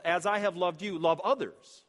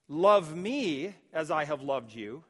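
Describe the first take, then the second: First: "love others" punched louder after "as I have loved you"; stress on LOVE OTHERS. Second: Slow reading, "Love me" held out and set apart; stress on ME. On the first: Preacher correcting the misreading of Jesus, emphasis on "love others". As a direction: land firmly on "love others" as the real point. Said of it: "But the emphasis here is". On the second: Preacher voicing what Jesus did not say, stress on "me". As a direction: draw out "Love me" as the mistaken wording. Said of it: "It's not what he says". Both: Shown as a demonstration.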